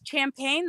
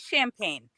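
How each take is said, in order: First: The word begins with a hard 'ch' sound. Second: The word begins with a soft 'sh' sound. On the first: The speaker calls it wrong. "Nobody says champagne" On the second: The speaker calls it right. "they say champagne"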